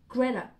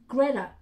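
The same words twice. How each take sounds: No difference in how they are said.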